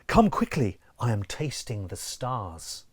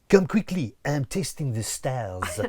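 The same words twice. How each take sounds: First: It is said in a plain, ordinary voice. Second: It is said with a put-on French accent.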